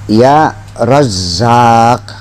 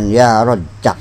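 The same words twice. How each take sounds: First: The z sound is held long and doubled. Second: The z sound is short and single. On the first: The speaker calls it right. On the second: The speaker calls it wrong.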